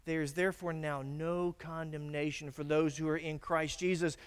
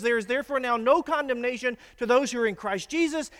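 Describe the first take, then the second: First: Said in the usual way. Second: Loud, high proclamation. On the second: Shown as a demonstration. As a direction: declare the verse boldly at full voice. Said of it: "You say that out loud".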